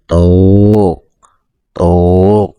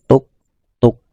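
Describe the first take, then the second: First: The two beats come slowly, far apart. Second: The two beats come at a moderate pace. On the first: This makes the length too long. The speaker calls it wrong. "itu terlalu pelan" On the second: This is the correct length of two beats. The speaker calls it right. "Ketukannya itu wajar saja"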